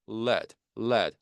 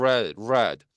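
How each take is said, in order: First: "lead" as led, with a forward L; L resonating in front. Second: "red" with R rung from the back of the mouth; R resonating inside. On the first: Teacher contrasting L with R, forward L in "lead" said as led. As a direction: ring the L of "lead" at the front, rhyming with bed. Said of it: "앞쪽에서 울리죠". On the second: Teacher contrasting R with L, inward R in "red". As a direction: draw out the R that opens "red". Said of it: "안쪽에서 울려요". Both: Shown as a demonstration.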